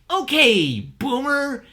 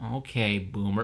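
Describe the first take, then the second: First: It is said in a playful, gleeful tone. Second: It is said in a flat, unamused tone. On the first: Pointing it out is a fun jab. "I'm supposed to have fun when I say it. Like the the tone of voice should be" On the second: It is too obvious to be worth pointing out. "it's a little bit like, oh"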